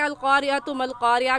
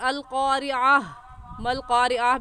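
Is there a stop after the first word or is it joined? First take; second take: joined; stop. First: The first word runs straight into the next one. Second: The first word ends in a stop before continuing. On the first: "तो हम मिलाकर भी पढ़ सकते हैं" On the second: "चाहे आप मिलाकर पढ़ें या यहाँ पर वक्फ पढ़ लें"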